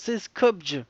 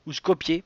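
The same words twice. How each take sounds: First: «Skopje» dit «skopj», sans voyelle finale; «Skopje» en une syllabe, finale sourde; Skopje à la française. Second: «Skopje» dit «skop-yé», en deux syllabes; «Skopje» avec un «yé» final qui monte. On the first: («Skopje» prononcé «skopj») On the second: («Skopje» prononcé «skopié») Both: Shown as a demonstration. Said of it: "Je sais pas comment on prononce".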